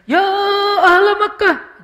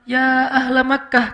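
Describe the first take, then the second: First: It is called out in an exaggerated, dramatic shout. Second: It is called out at a moderate, measured level.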